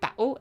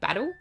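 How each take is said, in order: First: The middle t sound is dropped. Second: The middle t sound is clearly pronounced. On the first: "I often say it like that, battle" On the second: "instead of battle"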